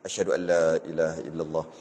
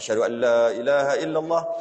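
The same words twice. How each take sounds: First: It is said softly, barely audible. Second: It is said loudly, projected outward. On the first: Only the caller himself is meant to hear it. "disebut apa perlahan-perlahan. Dia je dengar" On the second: It is meant for everyone to hear. "Lepas tu barulah kuat-kuat"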